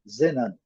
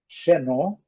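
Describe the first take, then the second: First: The stress is on the first syllable. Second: The stress is on the last syllable. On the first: This is the English pronunciation. "eles colocam aqui na primeira" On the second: This is the Portuguese pronunciation. "Nós colocamos a sílaba tônica na última"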